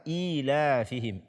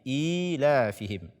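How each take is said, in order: Both takes have the same delivery.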